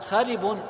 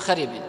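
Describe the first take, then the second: First: The word ends in the vowel -un. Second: The word ends in the vowel -in. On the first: It describes the burrow, following its case. The speaker calls it right. "الصواب أن يقال خرب" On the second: It takes the case of the neighbouring word. The speaker calls it wrong. "لكنهم ينطقونها بالجر"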